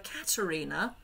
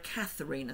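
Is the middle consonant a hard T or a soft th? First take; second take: hard T; soft th. First: The middle consonant is a hard t sound. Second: The middle consonant is a soft th sound. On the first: "a hard T" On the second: "a th"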